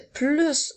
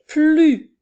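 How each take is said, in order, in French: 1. Le S final se prononce. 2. Le S final est muet. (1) "cette fois-ci, nous entendons la lettre S" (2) "nous avons la lettre S qui est muette"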